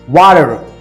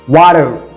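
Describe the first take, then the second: First: It is said in an American accent. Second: The same.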